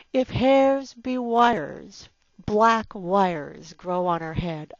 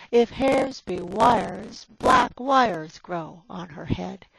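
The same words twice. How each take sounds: First: "If hairs be wires, black wires" each word hit heavy and loud, slowly; heavy stresses. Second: "If hairs be wires" said smoothly in a steady beat; smooth iambic reading. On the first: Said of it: "all four of these in a row, stressed and heavy". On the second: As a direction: let the line flow in an even rhythm. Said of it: "everything goes along quite smoothly". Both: Shown as a demonstration.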